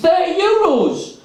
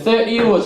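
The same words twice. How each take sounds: First: Much higher, slow, outraged repeat; incredulous. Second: Said in the usual way. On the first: Retold or imitated. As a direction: echo the price back in disbelief. Narrator repeats price in disbelief.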